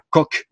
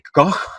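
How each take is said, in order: First: Koch is pronounced with a French-style sound. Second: Koch is pronounced with a German-style sound. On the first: The speaker calls it wrong. "on ne disait pas Koch" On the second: The speaker calls it right. "mais qu'on disait Koch, parce que c'est un mot allemand"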